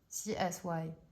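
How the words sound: The final letter is named the English way. "Y en anglais ça se dit Y, ça se dit pas I"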